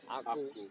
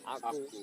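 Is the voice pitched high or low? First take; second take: low; low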